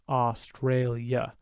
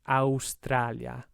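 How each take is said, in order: First: Each letter a gets a different vowel sound. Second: Every letter a gets the same open vowel. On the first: "if you think about that in English, we're making three different sounds with the A's" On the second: "In Italian"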